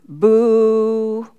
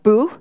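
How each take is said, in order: First: The vowel is held for two counts. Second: The vowel is held short. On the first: The speaker calls it right. "longer two counts" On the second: The speaker calls it wrong. "It's not boo"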